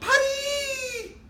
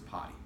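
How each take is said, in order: First: The word is said in an excited, lively voice. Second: The word is said in a calm, even voice. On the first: The speaker calls it wrong. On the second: The speaker calls it right.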